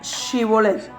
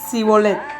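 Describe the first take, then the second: First: The word begins with an 'sh' sound. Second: The word begins with an 's' sound. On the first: The speaker belongs to the right tribe. The speaker calls it right. "Se les hacía pronunciar una palabra" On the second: The speaker belongs to the enemy tribe. The speaker calls it wrong. "no podían pronunciarla, en su defecto decían"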